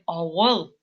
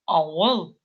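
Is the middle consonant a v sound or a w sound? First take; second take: w sound; w sound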